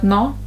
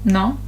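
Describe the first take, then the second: Both takes have the same delivery.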